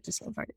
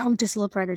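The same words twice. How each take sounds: First: Whispered, much softer, breath only; fading whisper. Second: Said in the usual way. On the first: Retold or imitated. Boys urging each other further up the mountain, trailing off in a whisper. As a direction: let it die away to a whisper.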